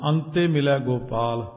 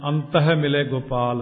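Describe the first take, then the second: First: The first word is said as 'antai', no h. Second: The first word is said as 'ant hai', with h. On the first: At the end one merges into God. The speaker calls it right. "ਆੜੇ ਉੱਤੇ ਟਿੱਪੀ ਤੱਤੇ ਨੂੰ ਲਾ" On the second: It refers to the inner mind. The speaker calls it wrong. "ਬਹੁਤ ਸਾਰੇ ਪ੍ਰੇਮੀ ਗਲਤੀ ਨਾਲ ਇਉਂ ਕਹਿੰਦੇ"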